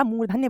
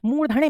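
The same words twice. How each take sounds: First: मूर्धन्य as "moor-dhan-nya"; correct pronunciation. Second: मूर्धन्य as "moor-dha-Ne", retroflex N; wrong pronunciation. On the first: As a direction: dental n joined to y in मूर्धन्य. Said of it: "मूर्धन्य बोला जाता है". (सही उच्चारण, मूर्धन्य में आधा न और य) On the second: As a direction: end मूर्धन्य on a curled-tongue N. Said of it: "मूर्धन्य में नहीं बोला जाता". (गलत उच्चारण, मूर्धन्य को मूर्धणे बोलें) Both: Shown as a demonstration.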